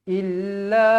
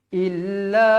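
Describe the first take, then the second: No difference in how they are said.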